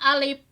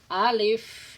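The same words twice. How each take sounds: First: The word ends with a stopped p sound. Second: The word ends with a breathy f sound. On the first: The speaker calls it wrong. "Kalau pakai P balem alif. Salah itu" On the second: The speaker calls it right. "Pakai F"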